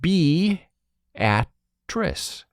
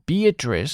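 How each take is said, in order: First: It is pronounced the local Nebraska way. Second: It is pronounced like the usual woman's name. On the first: It is the Nebraska town. "the Nebraska pronunciation is just plain silly" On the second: It is the woman's name. "Beatrice is the name"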